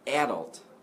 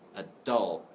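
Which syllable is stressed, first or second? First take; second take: first; second. First: The stress is on the first syllable. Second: The stress is on the second syllable. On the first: "if you stress the a, the first syllable" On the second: "the stress is on the second syllable"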